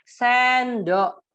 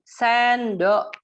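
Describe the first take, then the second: First: Put-on loud, higher model word for a child. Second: "Sendok" said clearly and loud, higher; modeling the word. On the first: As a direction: say it clearly to teach the child. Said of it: "Ibu di sampingnya bilang". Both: Shown as a demonstration.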